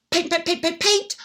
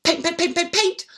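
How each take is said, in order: Both takes have the same delivery.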